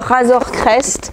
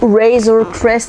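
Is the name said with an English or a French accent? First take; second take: French; English. First: It is said with a French accent. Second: It is said with an English accent.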